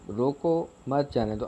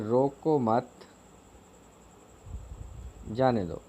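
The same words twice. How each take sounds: First: The pause comes right after 'roko'. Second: The pause comes right after 'mat'.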